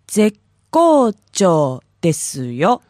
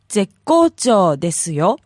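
First: It is said more slowly. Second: It is said at normal speed.

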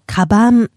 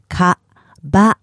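First: It is said fast as one word. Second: It is said slowly, broken into syllables.

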